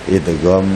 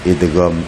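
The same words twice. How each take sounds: No difference in how they are said.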